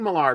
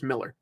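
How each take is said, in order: First: The last syllable is said with an 'ar' sound. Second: The last syllable is said with an 'er' sound. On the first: The speaker calls it wrong. "I keep saying Millar, I want to pronounce it that way based on the spelling" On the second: The speaker calls it right. "apparently it's Miller"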